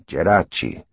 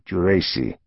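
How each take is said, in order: First: The name is said with Italian pronunciation. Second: The name is said with American pronunciation.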